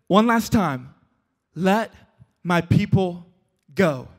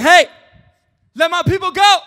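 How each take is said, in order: First: Measured, with a pause between phrases; weighty, spaced-out ultimatum; final warning. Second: High, loud mock demand; raised, high-pitched proclamation; calling out. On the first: Acted. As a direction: deliver it slowly as a last demand, dropping at the end. Moses' final solemn demand. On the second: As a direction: call it out like a command to a ruler. Acting Moses confronting Pharaoh.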